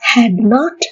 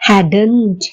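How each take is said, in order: First: It is said as two separate full words. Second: It is said as one short contracted word.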